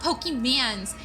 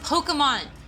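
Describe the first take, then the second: First: The last syllable sounds like 'mans'. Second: The last syllable sounds like 'mon'. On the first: The speaker calls it wrong. "saying it wrong" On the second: The speaker calls it right. "It's Pokemon"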